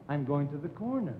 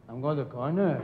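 First: CORNER brought down to a full stop; period at the end. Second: CORNER left hanging, pitched up as if unfinished; mock the habit by lifting the end of "corner"; ending up in the air. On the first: Partner teaches how to end a sentence, final fall on "corner". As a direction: close the sentence firmly on "corner", pitch falling. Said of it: "there's a period there". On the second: Partner shows the wrong way, "corner" left up in the air. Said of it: "end everything up in the air". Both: Shown as a demonstration.

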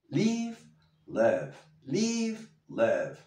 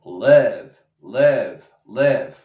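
First: Live with the i like an e, lower; live más grave. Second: Live repeated much louder, like lev; live fuerte como lev; loud drilled live. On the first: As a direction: drop live down, like lev. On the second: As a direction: punch each live out loud. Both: Shown as a demonstration. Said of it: "la I como la E, más grave".

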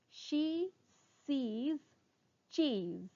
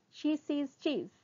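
First: Word by word, long pauses between; slow tongue twister. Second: Words joined in one phrase; sped-up tongue twister. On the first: Teacher introduces a twister to students, very slowly. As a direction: stretch and separate every word. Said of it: "first try saying them slowly". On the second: Teacher speeds up the twister for students, briskly. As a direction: run it together briskly. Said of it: "speed up". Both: Shown as a demonstration.

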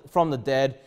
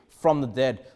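The two takes are said the same way.

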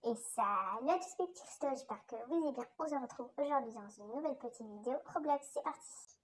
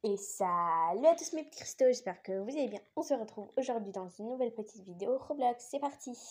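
First: Filtered voice-changer take. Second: Said in the usual way. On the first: Shown as a demonstration. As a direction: voice run through a modifier. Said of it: "avec le modificateur de voix". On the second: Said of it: "sans le modificateur de voix, donc ma voix normale".

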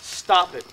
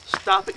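First: "Stop it" said voiced and a bit louder; plain firm "Stop it", fully voiced; voiced warning "Stop it". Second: "Stop it" hissed in a whisper with no voice; whispered warning "Stop it". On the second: Retold or imitated. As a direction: breathe "Stop it" as a sharp whisper. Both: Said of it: "he says to me".

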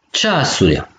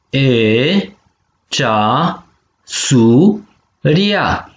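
First: Said in the usual way. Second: Syllable by syllable. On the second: Shown as a demonstration. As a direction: model cea - su - ria with gaps. (pe silabe: cea, su, ria) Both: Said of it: "penem vitumen".

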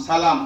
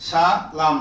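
First: Said in the usual way. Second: সালাম split into two parts, সা and লাম; teacher breaking up সালাম for learners; syllable by syllable. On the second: Shown as a demonstration. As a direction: sound out সালাম slowly in separate syllables. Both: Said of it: "উচ্চারণ শুধু, বানান নাই আর".

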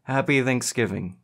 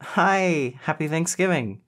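First: Milder, less excited reply; echoed greeting. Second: High-pitched, cheery hello; joyful greeting. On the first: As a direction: return the greeting a little higher than usual, restrained. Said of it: "Cameron echoed". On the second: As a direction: greet a dear friend with delight. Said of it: "she exclaimed joyfully". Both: A narrator's reading.

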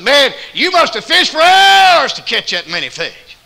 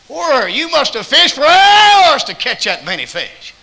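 First: High, loud, slow astonishment; amazed shout. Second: High, loud, slow wonder; amazed stranger. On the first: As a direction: shout in wonder at the catch. Stranger amazed at catch. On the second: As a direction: marvel at the huge catch. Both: Retold or imitated.

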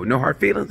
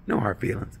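First: "No hard feelings?" rising at the end; questioning "No hard feelings?"; asking tune. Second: "No hard feelings." whispered, falling; soft whispered "No hard feelings."; whispered answer. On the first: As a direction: ask "No hard feelings?" hopefully, lifting "feelings". Guy asks the date. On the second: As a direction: breathe "No hard feelings." flatly, stress on "hard". Date answers under her breath. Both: Retold or imitated.

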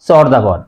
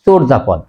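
First: চর্যাপদ with open first vowel, chawr-japod; common mispronunciation. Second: চর্যাপদ with closed o, chor-japod; correct pronunciation. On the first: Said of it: "আমরা অনেকেই উচ্চারণ করি". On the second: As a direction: round the first vowel of চর্যাপদ to a full o. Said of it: "সঠিক উচ্চারণ হবে". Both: Shown as a demonstration.

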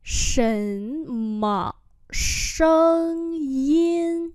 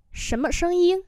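First: Each syllable held long; slow, separated syllables; slow demonstration. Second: Said in the usual way. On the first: Shown as a demonstration. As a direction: model every tone slowly. Teacher repeats phrase slowly.

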